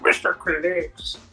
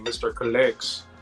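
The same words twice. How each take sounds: First: The name is said in a weird put-on accent. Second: The name is said in a plain, ordinary voice.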